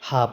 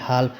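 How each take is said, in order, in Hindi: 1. L की आवाज़ silent है। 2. L की आवाज़ बोली जाती है। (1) "हाफ ही पढ़ेंगे" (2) "हाल्फ इसको नहीं पढ़ेंगे"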